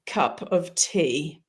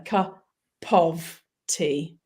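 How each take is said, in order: First: Slow "cup of tea" with the p rolling straight into "of"; linked cup of tea. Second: "cup" then a pause, then "of tea"; staccato take of "cup of tea"; separated cup of tea. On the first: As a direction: join "cup" and "of" with no break, one smooth sound. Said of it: "when I say cup of tea, I'm actually rolling the P and the of together". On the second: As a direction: split "cup" off with a clear gap before "of tea". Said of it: "rolling the P and the of together". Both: Shown as a demonstration.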